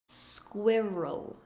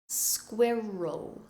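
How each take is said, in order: The two takes are said the same way.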